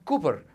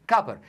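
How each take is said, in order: First: The first vowel is a long oo sound. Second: The first vowel is short. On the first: The speaker calls it wrong. "ما بتنطقهاش كلمه كوبر بتاع المنتخب" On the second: The speaker calls it right. "لا انت تنطقها ايه؟"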